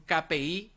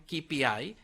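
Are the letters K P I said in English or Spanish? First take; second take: Spanish; English. First: The letters are named with Spanish pronunciation. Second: The letters are named with English pronunciation. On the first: "así lo pronunciamos en español" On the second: "en inglés sería un K P I"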